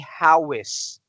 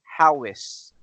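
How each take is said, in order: First: The two words are linked with a w sound. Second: The same.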